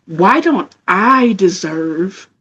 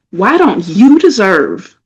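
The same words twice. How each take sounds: First: "I" drawn out slowly; slow, pointed question with weight on "I"; stress on I. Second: Slow, pointed question with weight on "you"; stress on YOU. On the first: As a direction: lean long on the word "I". Contrasts I with later you. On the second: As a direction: lean long on the word "you". Turns the question on listeners. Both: Real, not acted.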